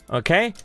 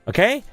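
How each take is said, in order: No difference in how they are said.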